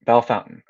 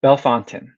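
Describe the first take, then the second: First: Bellefontaine again as "Bell-fountain"; confirming Bellefontaine as "Bell-fountain"; repeating the local name. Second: Bellefontaine said as "Bell-fountain"; careful local Bellefontaine, "Bell-fountain"; trying the local name. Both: Shown as a demonstration. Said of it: "is pronounced Bellefontaine".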